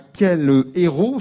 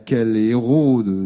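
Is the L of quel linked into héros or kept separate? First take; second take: separate; linked. First: Héros starts fresh, not linked to quel. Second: The L runs straight into héros. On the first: The speaker calls it right. "quand il y a un H aspiré, il faut dire quel héros" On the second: The speaker calls it wrong. "je fais des erreurs, pardonnez-moi"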